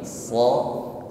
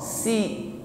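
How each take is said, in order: First: The consonant sounds heavy and thick. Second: The consonant sounds thin and light. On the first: The speaker calls it right. "lebih berat dan lebih tebal bunyinya" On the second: The speaker calls it wrong. "bukan si sebagaimana mengucapkan huruf sin"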